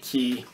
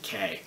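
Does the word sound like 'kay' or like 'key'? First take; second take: key; kay. First: The word is pronounced like 'key'. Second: The word is pronounced like the letter K. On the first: This is how island natives say it. The speaker calls it right. "they will pronounce it Key" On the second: This is how tourists say it. The speaker calls it wrong. "tourists are the ones that pronounce it K"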